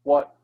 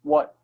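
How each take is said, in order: The two takes are said the same way.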